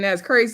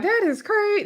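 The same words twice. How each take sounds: First: Said in the usual way. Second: Much higher, imitating Mel; mock high that is crazy. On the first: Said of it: "basically saying". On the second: Mel dismissing the claim, a high mocking that is crazy. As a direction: lift it high in disbelief. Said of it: "Mel was like".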